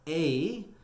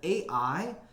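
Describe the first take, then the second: First: It is one syllable rhyming with play. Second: It is said as two separate letter names. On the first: The speaker calls it right. "as in, you know, the word play" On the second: The speaker calls it wrong. "makes me think of artificial intelligence"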